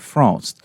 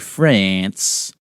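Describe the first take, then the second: First: The word is said the French way. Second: The word is said the American way. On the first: The speaker calls it right. "That's how the French say it" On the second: The speaker calls it wrong. "Don't say France. That's how Americans say it"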